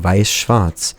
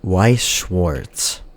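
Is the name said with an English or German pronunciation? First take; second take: German; English. First: The name is said with German sounds. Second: The name is said with English sounds. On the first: It sounds a bit pretentious in conversation. "perfectly capable of saying Weiß-Schwarz" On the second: It is how everyone else says it. "the more I heard people say Weiß-Schwarz, the more I got used to it"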